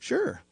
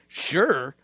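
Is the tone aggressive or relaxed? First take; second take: relaxed; aggressive. First: It is said in a calm, relaxed tone. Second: It is said in a curt, aggressive tone. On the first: The writer means it casually. "reading it all as a relaxed conversation" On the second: The reader takes it as hostile. "the dude that sent it is reading"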